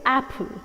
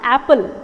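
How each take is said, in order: First: The stress is on the first syllable. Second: The stress is on the second syllable. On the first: The speaker calls it right. "The stress is on the first syllable" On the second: The speaker calls it wrong. "It is wrong, it is not apple"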